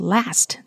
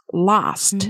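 First: It is said with an American accent. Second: It is said with a British accent.

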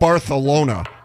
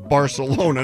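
First: The c is pronounced like English th. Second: The c is pronounced like an English s. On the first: It is the pronunciation used in Spain. "the way the true Barcelonians pronounce their city" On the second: It is the usual local English pronunciation. "we live here"

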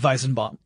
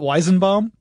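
First: The name is said with a German pronunciation. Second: The name is said with an English pronunciation. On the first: This is the correct form in the original language. "it would be Weizenbaum" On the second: This is how the man himself likely says it. "I'm sure he pronounces it Weizenbaum"

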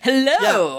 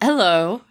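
First: It is said with high energy. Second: It is said with low energy.

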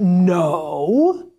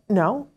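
First: The word sounds harsh and judgmental. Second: The word sounds calm and neutral. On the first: The answer is being scolded as a mistake. The speaker calls it wrong. "it's not a no" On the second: It simply gives the information that the answer is wrong. The speaker calls it right. "It's just a no"

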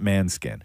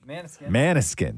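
First: The name drops the middle vowel, two syllables. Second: The name has a middle vowel, three syllables. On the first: The speaker calls it wrong. "not Manskin" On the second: The speaker calls it right. "Maniskin, not Manskin"

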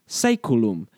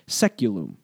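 First: The word is pronounced the Latin way. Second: The word is pronounced the anglicized English way. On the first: "the Latin word saeculum" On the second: "the anglicized pronunciation seculum"

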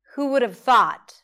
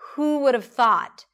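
First: The words are reduced and run together. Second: The words are reduced and run together.

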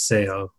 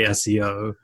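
First: It is sounded out as one word. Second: It is spoken as three separate letters. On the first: "in Spanish, how they pronounce it typically is SEO" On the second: "we all say SEO"

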